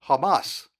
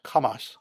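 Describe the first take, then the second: First: Said in the usual way. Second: Hamas said the way the Hebrew word sounds; Hamas, corrected pronunciation. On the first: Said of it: "more pronounced Hamas". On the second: Shown as a demonstration. Preacher corrects how the congregation says Hamas, careful pronunciation. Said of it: "it's actually probably more pronounced".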